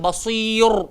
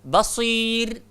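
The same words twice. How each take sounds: First: The r sound is heavy and full. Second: The r sound is light and thin. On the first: The speaker calls it wrong. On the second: The speaker calls it right.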